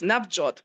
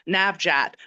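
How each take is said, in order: First: The name is said with a Punjabi vowel. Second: The name is said with an American vowel. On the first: It reflects the heritage language. "in Punjabi, it's" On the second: It reflects growing up away from the heritage language. "my siblings might say"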